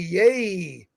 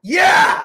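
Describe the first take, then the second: First: It is said flatly, without enthusiasm. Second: It is said with loud enthusiasm.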